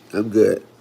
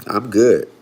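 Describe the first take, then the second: No difference in how they are said.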